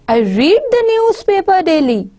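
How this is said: The emphasis falls on the word newspaper. The focus is on what is read. "the more focus is on newspaper"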